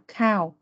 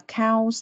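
First: The word ends on the vowel, with no s. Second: The word ends with an added s sound. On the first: The speaker calls it right. "mà là cow" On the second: The speaker calls it wrong. "không có S nên là mình không có kiểu đọc là cows"

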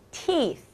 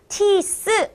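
First: The final sound is a clear 'th' sound. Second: The final sound is not a 'th' sound. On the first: The speaker calls it right. "th는 혀가 보이게 라고 발음하는 거예요" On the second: The speaker calls it wrong. "teeth 아니고요"

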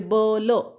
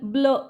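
First: The two sounds are said separately. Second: The two sounds are blended into one. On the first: The speaker calls it wrong. "बीसाठी ब आणि एलसाठी ल, म्हणजे ब ल असं वाचतात" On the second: The speaker calls it right. "बी यल ब्ल न वाचता"

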